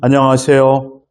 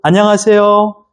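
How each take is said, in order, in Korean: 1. 이 인사는 낮은 음으로 말합니다. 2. 이 인사는 중간 음으로 말합니다. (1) "좀 너무 우울하잖아요" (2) "도레미파 솔 안녕하세요"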